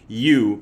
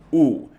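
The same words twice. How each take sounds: First: It starts with a y glide, like 'you'. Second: It is a plain flat 'oo' with no glide. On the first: The speaker calls it wrong. "not pronounced U" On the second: The speaker calls it right. "but just U"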